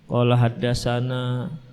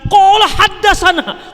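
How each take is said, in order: First: It is said slowly and limply. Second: It is said with renewed, heightened energy. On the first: The speaker is downcast and unmotivated. "Tapi kali ini dia pelan" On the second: The speaker has been cheered up by good news. "ustaznya semakin semakin semakin semangat"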